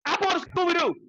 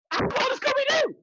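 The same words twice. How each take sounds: First: Said in the usual way. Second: Excited. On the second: Shown as a demonstration.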